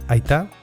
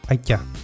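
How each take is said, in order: First: The t after i is a plain t. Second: The t after i is palatalized, like ch.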